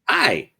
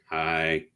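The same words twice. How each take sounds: First: The greeting sounds cheerful and warm. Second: The greeting sounds upset and gloomy.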